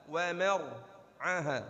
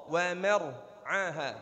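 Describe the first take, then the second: No difference in how they are said.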